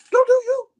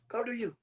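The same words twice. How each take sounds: First: High, loud send-off, acted out; retold loud dismissal. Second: Soft, resigned send-off; retold quiet dismissal. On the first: Man repeating his parting words to his ex, loud dismissal. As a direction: throw the ex out at full voice, retold. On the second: Man retelling his parting words to his ex, quiet dismissal. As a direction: let the ex go under your breath.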